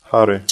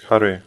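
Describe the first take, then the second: First: Hare said HA-re, first syllable stressed. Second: Hare said ha-RE, final syllable stressed; stress on last syllable. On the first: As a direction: lean on the A in Hare. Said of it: "the stress is on A". (stress on the A, HA-re) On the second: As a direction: lean on the end of Hare. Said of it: "the stress is put on Ye". (stress on the final E, ha-RE) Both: Shown as a demonstration.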